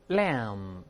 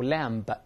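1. 这个词结尾是 m 音。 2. 这个词结尾是 b 音。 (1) "注意b 不发音啊，闭住嘴" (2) "不要读lamb，b 不发音啊"

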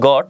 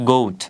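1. স্বরধ্বনিটি একটি হ্রস্ব o ধ্বনি। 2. স্বরধ্বনিটি একটি দীর্ঘ oh ধ্বনি। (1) "ছাগলকে আমরা বলি গট, বাট এটার আসলে গট হবে না" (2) "এটা শুদ্ধ উচ্চারণ হবে হচ্ছে গোট"

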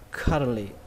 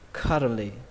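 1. Đọc nhanh, âm t bị lược bỏ hoàn toàn. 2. Đọc nhanh, âm t bị lược bỏ hoàn toàn.

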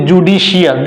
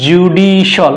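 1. শেষের অংশটি 'shee-al' হিসেবে উচ্চারিত হয়। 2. শেষের অংশটি 'shal' হিসেবে উচ্চারিত হয়। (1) "this is wrong pronunciation" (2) "সিআইএল শল"

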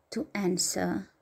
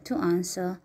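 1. Se pronunță cu pronunție americană. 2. Se pronunță cu pronunție britanică.

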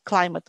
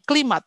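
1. Vokal pertama terdengar seperti 'eye'. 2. Vokal pertama terdengar seperti 'ee'. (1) "Climate, bukan klimat" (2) "bukan klimat"

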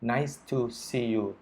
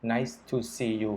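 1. พูดแบบเรียบๆ เหมือนหุ่นยนต์ 2. พูดแบบเรียบๆ เหมือนหุ่นยนต์

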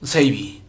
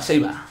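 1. El nombre termina en la vocal 'ee'. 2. El nombre termina en la vocal 'ah'. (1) "Me suena mejor Seibi" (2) "Me piden que haga de nuevo a Seiba"

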